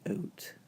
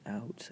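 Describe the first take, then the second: First: The vowel sounds Canadian-like, southern mixed with British. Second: The vowel sounds like general American English. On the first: "I say out" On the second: "when I say out"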